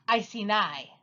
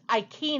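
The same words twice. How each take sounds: First: It uses the standard English scholarly pronunciation. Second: It uses a classical Latin pronunciation. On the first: "But it's actually pronounced Iceni" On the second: "if you're getting really technical with your Latin"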